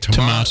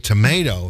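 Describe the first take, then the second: First: It is said in an Australian accent. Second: It is said in an American accent.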